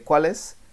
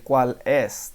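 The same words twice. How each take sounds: First: The two words run together as one. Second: The two words are said separately. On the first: "They say cuál es" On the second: "they don't say cuál es. They don't separate the words"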